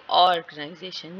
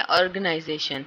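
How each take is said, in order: First: "organisation" with ऑर् held and set apart; deliberate ORR-ganization for "organisation"; secondary stress demo. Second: Said in the usual way. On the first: Shown as a demonstration. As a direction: stretch the opening ऑर् of "organisation". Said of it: "ये जो है ये secondary level है".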